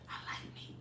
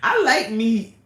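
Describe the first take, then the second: First: It is said in a whisper. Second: It is said in a normal voice.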